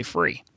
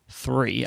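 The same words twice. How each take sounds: First: THREE said with an F, as "free". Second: THREE with a clear TH at the front; tongue between the teeth to begin THREE; standard TH sound. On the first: Briton explains their upbringing, TH fronted to F in FREE. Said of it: "I would say it with an F". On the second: Briton shows the correct version, THREE with TH. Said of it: "instead of saying three". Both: Shown as a demonstration.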